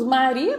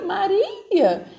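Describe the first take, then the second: First: Said in the usual way. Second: Mock-contemptuous Maria, pitched higher and falling; scornful. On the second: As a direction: sneer the name Maria down at her. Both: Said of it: "é nesse tom que eles falam".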